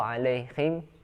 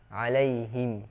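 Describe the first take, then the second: First: The h is a raspy, scraping sound. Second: The h is a plain, light breath. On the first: The speaker calls it wrong. "atau kho" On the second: The speaker calls it right. "dari pangkal tenggorokan"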